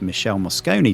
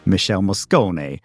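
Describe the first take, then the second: First: The name is said in a plain English accent. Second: The name is said in an Italian accent.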